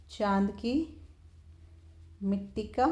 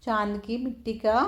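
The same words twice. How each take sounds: First: रुक-रुक कर धीरे बोलना; dictating slowly. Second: Said in the usual way. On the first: Shown as a demonstration. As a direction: split into two chunks with a pause between, a little softer. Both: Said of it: "repeats the phrase in pieces".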